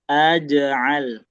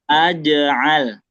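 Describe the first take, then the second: First: The j sound ends with a short bouncing echo. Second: The j sound ends with a short bouncing echo.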